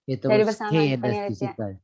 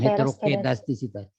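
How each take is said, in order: First: An 's' sound comes before the 'k'. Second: No 's' sound comes before the 'k'. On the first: The speaker calls it right. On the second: The speaker calls it wrong. "Jangan heterokedastisitas"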